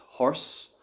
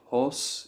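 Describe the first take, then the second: First: The o sound is between swallowed and open. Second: The o sound is let out fully and openly. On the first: "Horse in Ireland" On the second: "horse in the United Kingdom"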